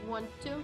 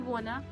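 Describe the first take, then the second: First: Both words are said fully and separately. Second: The two words merge into one reduced word.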